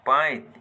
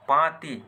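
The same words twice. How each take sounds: First: पाइत with the i moved before the t; apinihiti form. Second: Said in the usual way. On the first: Shown as a demonstration. Teacher contrasting it for learners, apinihiti form पाइत. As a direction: glide from long aa into इ, ending on त in पाइत. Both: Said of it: "ई तेर अपनिहित बनाल जाएला".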